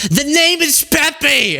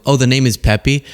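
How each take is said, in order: First: Very high, drawn-out imitated yell; slow, high-pitched screech of exasperation; mock scream. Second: Said in the usual way. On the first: Relative repeating a name to one hard of hearing, mock scream. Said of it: "And just start screaming". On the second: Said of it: "instead of going".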